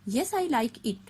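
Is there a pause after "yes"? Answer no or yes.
no. It runs on with no pause after "yes". The speaker calls it wrong. "we cannot say like that"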